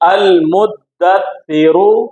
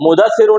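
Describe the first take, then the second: First: The middle consonants are doubled and held. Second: The middle consonants are single and not held. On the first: The speaker calls it right. "दाल के ऊपर भी तशदीद है, सा के ऊपर भी तशदीद है" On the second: The speaker calls it wrong. "मुदस्सिरु नहीं होगा, ये उर्दू में मुदस्सिर होता है"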